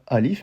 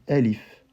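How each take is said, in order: First: The first vowel is a full open a. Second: The first vowel is softened toward e. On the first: The speaker calls it wrong. "je disais pas alif" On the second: The speaker calls it right. "mais bien elif"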